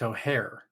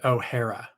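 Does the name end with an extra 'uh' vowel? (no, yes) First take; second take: no; yes. First: The name ends without an extra vowel. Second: The name ends with an extra 'uh' vowel. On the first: The speaker calls it right. "It's O'Hare" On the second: The speaker calls it wrong. "it's not named O'Hara"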